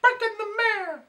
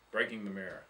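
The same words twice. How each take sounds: First: Big high loud mock-dramatic title call; dramatic announcement. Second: Said in the usual way. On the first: Repeating the story title to the friends, with a big mock fanfare. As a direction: announce it like a grand headline.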